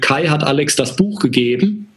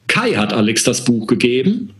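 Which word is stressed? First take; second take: none; Kai. First: The sentence is said with neutral stress. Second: The stress is on the name Kai.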